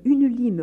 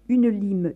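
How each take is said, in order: First: Crié, plus fort et plus aigu; le cri monte, elle exige; ordre crié. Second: Ordre pressant, un peu plus fort. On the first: (la mère crie son ordre au domestique, montant en force) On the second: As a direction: exige la lime sans attendre. (la mère ordonne au domestique, d'un ton pressant) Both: A narrator's reading. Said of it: "ordonna-t-elle au domestique".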